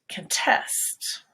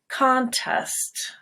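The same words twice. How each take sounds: First: The stress is on the second syllable. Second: The stress is on the first syllable. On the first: It is a verb. "So there the stress is on test" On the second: It is a noun. "Go high on con"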